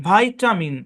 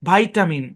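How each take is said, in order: The two takes are said the same way.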